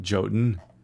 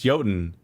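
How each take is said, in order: First: The word starts with a j sound. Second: The word starts with a y sound. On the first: The speaker calls it wrong. "It's not Jotun. You fool" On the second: The speaker calls it right. "it's Jotun"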